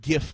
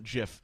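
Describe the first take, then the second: First: It starts with a hard g, as in gift. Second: It starts with a soft g, like j. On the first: The speaker calls it right. "pronounced GIF like gift" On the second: The speaker calls it wrong. "not GIF"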